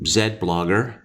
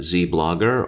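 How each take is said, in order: First: The letter Z is said the Canadian way. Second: The letter Z is said the American way. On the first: "or as we in Canada say" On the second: "use the American pronunciation"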